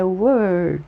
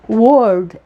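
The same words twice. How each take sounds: First: The vowel sounds like an 'er' sound. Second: The vowel sounds like an open 'o'. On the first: The speaker calls it right. "é word" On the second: The speaker calls it wrong. "não é word"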